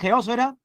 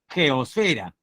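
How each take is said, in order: First: The stress falls on the second syllable, os. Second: The stress falls on the third syllable, fe. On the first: The speaker calls it right. "tildada en la O, al menos fonéticamente" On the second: The speaker calls it wrong. "dice la RAE que se escribe sin tilde"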